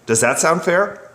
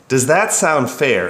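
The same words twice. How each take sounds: First: Said in the usual way. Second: Slowed down, leaning on that; slow, weighted. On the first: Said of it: "So I responded". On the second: Shown as a demonstration. The narrator weighs his own question, slow and deliberate. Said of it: "is not a throwaway question".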